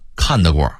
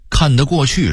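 First: The syllables run together quickly and blur. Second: Every syllable is said clearly and in full.

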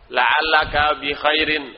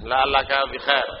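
First: The last word ends with its full final ending. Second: The last word ends without its final ending. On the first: This is the full formal reading style. "harus semuanya terakhirnya dibaca" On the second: This is the everyday spoken style. "ngomong gitu kalau sudah bekerja di kedubes Saudi"

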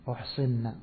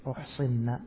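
Both takes have the same delivery.

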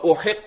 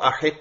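First: The word begins with an 'u' vowel. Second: The word begins with an 'a' vowel. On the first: It is read as the derived form-four verb. "ثلاثی مزید فی یعنی باب افعال سے" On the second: It is read as the simple form-one verb. "ثلاثی مجرد سے باب زاربہ سے"

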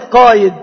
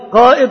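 First: A glide replaces the glottal stop in the middle. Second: A glottal stop is heard in the middle of the word. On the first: This is the lightened everyday form. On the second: This is the full original form.

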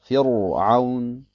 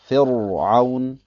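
No difference in how they are said.

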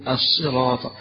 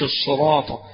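First: The s sound is light, close to plain s. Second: The s sound is heavy and emphatic. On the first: The speaker calls it right. "فهي مرققة قريبة من السين" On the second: The speaker calls it wrong. "مش"

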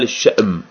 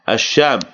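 First: A glottal stop follows the first consonant. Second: A long vowel follows the first consonant. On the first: "ويقال الشأم بالهمزة" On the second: "ويقال الشام بالمد"

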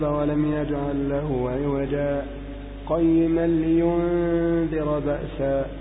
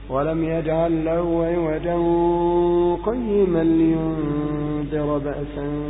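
First: There is a brief pause after عوجا. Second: It runs on without a pause after عوجا. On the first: "السكت كالوقف نندرج عليه أحكام الوقف. تقول" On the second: "إذا أضغم قل"

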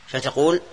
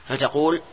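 No difference in how they are said.

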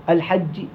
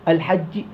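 Both takes have the same delivery.

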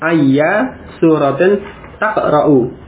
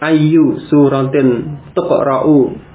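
First: The first word ends in a; verb starts ta. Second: The first word ends in u; verb starts tu. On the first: Which surah do you read in every rakaat? "Kalau yang mansub ayya suratin taqra'u" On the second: Which surah is read in every rakaat? "Kalau ini dibaca marfu ayu, maka fi'ilnya tuqra'u"

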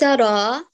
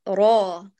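First: The r wavers between heavy and light. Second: The r is fully heavy and emphatic. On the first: The speaker calls it wrong. "لا تجعليها حائر صوتها بين تفخيم وترقيق" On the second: The speaker calls it right. "فخم الراء"

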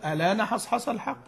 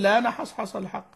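First: It begins with an initial 'a' vowel before 'l'. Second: It begins directly with the 'l' sound, no vowel. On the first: "أقول الآن حصحص الحق" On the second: "ممكن أقول لا نحصحص الحق"

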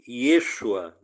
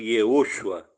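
First: The name is said with three syllables. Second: The name is said with four syllables. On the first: This form is further from the original. The speaker calls it wrong. "Yeshua não seria tão preciso" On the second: This form is closer to the original. The speaker calls it right. "Seria mais preciso Yehoshua"

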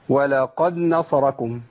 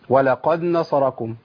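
No difference in how they are said.

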